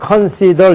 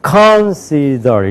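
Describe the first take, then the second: First: All syllables are said with even weight. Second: One syllable is strongly stressed over the others. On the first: The speaker calls it wrong. "이렇게 읽으면은 안 된단 말이에요" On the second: The speaker calls it right. "어떻게 읽든지"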